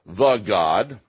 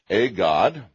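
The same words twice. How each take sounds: First: "The god" with The hit as "thuh"; stress on THE. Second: "A god" with A fully pronounced as "ay"; stress on A. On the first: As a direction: punch the article "The" before god. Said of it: "the definite article is to be supplied". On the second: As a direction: lean on the article "A" before god. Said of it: "indefinite article is to be supplied". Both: Shown as a demonstration.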